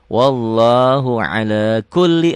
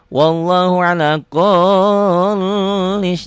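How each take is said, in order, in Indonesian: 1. Huruf L ganda dibaca pendek dan tidak ditahan. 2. Huruf L ganda dibaca panjang dan dilebih-lebihkan. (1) "lamnya double aja tanpa ditahan" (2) "jangan lebay"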